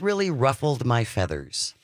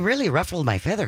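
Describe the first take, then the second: First: It is said in the speaker's ordinary voice. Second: It is said in a put-on Wisconsin accent.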